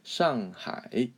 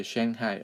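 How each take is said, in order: First: "Shanghai" as shahng-hai with Chinese tones; careful Mandarin "Shanghai"; correct pronunciation. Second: "Shanghai" with a short a as in hang; anglicized "Shanghai", no Chinese tones; wrong pronunciation. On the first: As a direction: say "Shanghai" slowly, open ah, final rise. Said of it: "now you know how to say it". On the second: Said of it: "Please don't say". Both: Shown as a demonstration.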